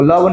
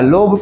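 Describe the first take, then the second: First: It is said with an 'uh' vowel and a final 'v'. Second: It is said with an 'o' vowel and a final 'b'. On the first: The speaker calls it wrong. "इसको लव नहीं पढ़िएगा" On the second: The speaker calls it right. "लोब पढ़िएगा"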